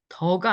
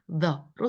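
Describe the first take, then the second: First: It starts with a Korean d-like sound. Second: It starts with a tongue-between-teeth th sound. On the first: The speaker calls it wrong. "더가 아니에요" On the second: The speaker calls it right. "더가 아니고 the로 소리를 내치는"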